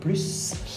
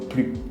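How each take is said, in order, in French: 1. Le S final se prononce. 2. Le S final est muet. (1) "on va prononcer le S" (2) "on ne prononce pas le S comme plus"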